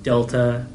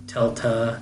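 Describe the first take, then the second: First: The word begins with a d sound. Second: The word begins with a t sound. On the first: This is the modern pronunciation. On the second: This is the old pronunciation.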